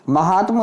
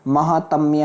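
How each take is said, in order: First: महात्म ending in plain -tma, no y; wrong form. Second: महात्म्य ending in -tmya; correct form. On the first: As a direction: say महात्म without the ya glide. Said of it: "नहीं होता मेरे भाई". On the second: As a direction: add the ya glide to महात्म्य. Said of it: "होता है". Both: Shown as a demonstration.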